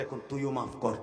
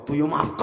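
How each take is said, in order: First: Said in the usual way. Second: Louder urging, ending in a cry; insistent command. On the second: Acted. God urges the mother to forgive her son, loud command. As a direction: push the repeated order out hard.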